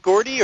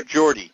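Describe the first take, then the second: First: Gordy with a hard G, as in go. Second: Geordie with a soft G, like a J. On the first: Host asking guest about his nickname, hard-G Gordy. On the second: Host asking guest about his nickname, soft-G Geordie. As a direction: open Geordie with a J sound. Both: Shown as a demonstration. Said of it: "is it Gordy or Geordie?".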